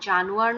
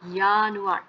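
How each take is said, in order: First: The word begins with a J sound. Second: The word begins with a Y sound. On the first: The speaker calls it wrong. "এখানে কিন্তু জানুয়ার না" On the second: The speaker calls it right.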